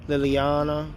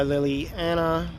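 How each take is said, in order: First: Liliana said lih-lee-AH-nuh, the a as in father; corrected name. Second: Liliana said lih-lee-AN-uh, the a as in cat; mispronounced name. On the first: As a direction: say Liliana with a broad ah. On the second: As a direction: say Liliana with a short flat a. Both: Real, not acted.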